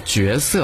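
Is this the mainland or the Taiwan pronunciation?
mainland. It uses the mainland reading of the first syllable. "我们内地所说的这个角色啊"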